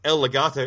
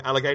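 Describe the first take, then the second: First: The words are said slowly as separate words. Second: The words are said fast, run into one word.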